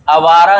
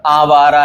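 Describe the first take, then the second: First: आवारा said as "a-vaara"; short first vowel. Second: आवारा said as "aa-vaara"; long first vowel. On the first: Teacher showing the mistake, आवारा with short first a. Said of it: "आवारा नहीं होता". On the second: Teacher correcting, आवारा with long first aa. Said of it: "आवारा है". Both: Shown as a demonstration.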